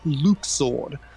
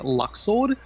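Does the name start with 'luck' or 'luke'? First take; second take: luke; luck. First: The first syllable sounds like 'luke'. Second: The first syllable sounds like 'luck'. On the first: This is the official pronunciation. "according to the Kingdom Hearts three translation team, it's pronounced Luke Sword" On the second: This is how the fan base said it. "the Kingdom Hearts fan base until Kingdom Hearts three were, were all pronouncing it Luxord"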